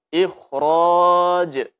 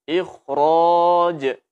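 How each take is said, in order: The two takes are said the same way.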